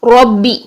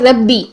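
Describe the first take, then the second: First: The r is heavy, with an o-like vowel. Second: The r is light, with a thin vowel. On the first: The speaker calls it right. "चूंकि हमने मोटा पढ़ना है" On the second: The speaker calls it wrong. "Mostly हम कहते हैं रब्बी"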